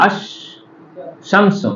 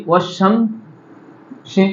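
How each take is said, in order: First: "আশ-, শামসু" read slowly, sounding the opening a of আশ; teacher sounds the hamza in আশ-, শামসু; ash-shamsu with the alif read. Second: "ওয়াশ-, শামসি" drawn out very slowly, waw running straight into শ; wash-shamsi with hamza dropped. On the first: Teacher shows students the word read alone, alif voiced. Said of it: "দেখো এখানে দেখো আশ-, শামসু আলিফ লামে". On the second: Teacher shows students how waw joins the sun letter, slow demo. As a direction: glide ওয়া into শামসি with no a sound between. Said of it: "যদি আমি এখানে ওয়াও লাগিয়ে দিই". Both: Shown as a demonstration.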